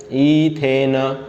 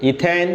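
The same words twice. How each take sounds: First: ethane stretched very slowly, lower; drawn-out answer. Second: Said in the usual way. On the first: Shown as a demonstration. Teacher to class, drawing out the answer slowly. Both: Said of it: "बोलो फटाफट से".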